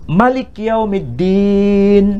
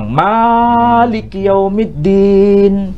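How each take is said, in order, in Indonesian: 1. Vokal pertama dibaca pendek. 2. Vokal pertama dibaca panjang. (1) "ma-nya pendek" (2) "dibaca panjang"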